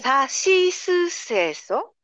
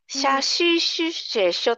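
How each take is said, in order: First: The syllables begin with a clear s sound. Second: The syllables begin with an sh sound. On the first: The speaker calls it right. "例えば日本語で言うと、" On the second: The speaker calls it wrong. "はっきり言えなくて、しゃししせしょとか"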